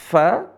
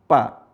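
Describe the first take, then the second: First: The first sound uses upper teeth on lower lip. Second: The first sound is made with both lips. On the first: The speaker calls it right. "Yang benar adalah gigi seri ketemu bibir bawah" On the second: The speaker calls it wrong. "Kalau bibir ketemu dengan bibir jadi apa?"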